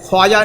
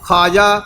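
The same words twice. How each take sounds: First: The w sound after kh is pronounced. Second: The w sound after kh is silent. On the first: The speaker calls it wrong. "नहीं कहेंगे" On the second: The speaker calls it right. "यह वाव लिखा रहेगा लेकिन आवाज़ नहीं आएगी"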